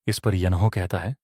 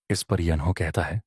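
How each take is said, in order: Both takes have the same delivery.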